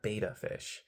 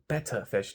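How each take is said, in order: First: The first syllable sounds like 'bay'. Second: The first syllable sounds like 'bet'. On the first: The speaker calls it wrong. "not beta fish" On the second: The speaker calls it right. "it's pronounced betta fish"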